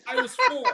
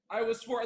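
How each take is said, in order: First: High, loud sudden yell. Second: Said in the usual way. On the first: Shown as a demonstration. Comedian opens the next bit with more yelling, yelling. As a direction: burst out with it at a high pitch. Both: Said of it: "more yelling".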